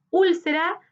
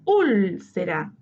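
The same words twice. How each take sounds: First: Said in the usual way. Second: Úlcera with a long, emphatic ÚL; tonic syllable stressed. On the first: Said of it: "identificar la sílaba tónica". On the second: Shown as a demonstration. Teacher repeating the method for students, ÚL drawn out in úlcera. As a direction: lean hard on ÚL in úlcera, slowly. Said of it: "Lo mismo con".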